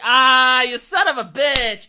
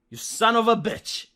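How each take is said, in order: First: It sounds friendly and playful, not insulting. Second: It sounds hostile, like an insult.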